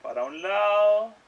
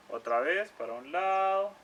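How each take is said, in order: First: Slow and gentle. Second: Said in the usual way. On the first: Shown as a demonstration.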